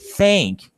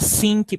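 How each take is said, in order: First: It begins with the tongue between the teeth. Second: It begins with a plain 's' sound. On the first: It means to think. The speaker calls it right. "a gente levasse a nossa língua no meio dos dentes" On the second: It is understood as 'sink'. The speaker calls it wrong. "É um som de S"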